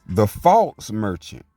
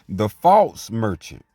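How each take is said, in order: Both takes have the same delivery.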